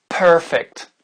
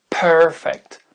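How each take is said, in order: The two takes are said the same way.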